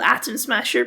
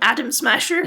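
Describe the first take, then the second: First: The t in the middle sounds crisp. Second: The t in the middle sounds like a d. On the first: "he's called Atom Smasher" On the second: "because they all have American accents, they'll call him Adam Smasher"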